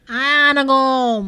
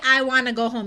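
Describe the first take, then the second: First: Put-on loud, drawn-out toddler slur; Lil A. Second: Said in the usual way. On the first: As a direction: blur the words into one long little-kid wail. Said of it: "He kept saying". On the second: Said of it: "He couldn't say".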